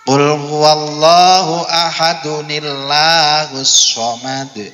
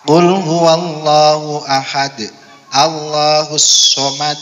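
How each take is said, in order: First: 'Ahad' runs into 'nillahus' with an added n. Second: 'Ahad' stops before a separate 'Allahus'. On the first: The speaker calls it right. "ada nun kecilnya ketika dibaca wa wasal" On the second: The speaker calls it wrong. "jangan sampai Allahus somad"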